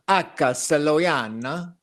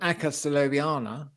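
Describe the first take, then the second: First: It is said with an Italian accent. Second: It is said with a British English accent. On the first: The speaker calls it right. "Latin should be pronounced as if you were an Italian" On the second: The speaker calls it wrong. "rather than"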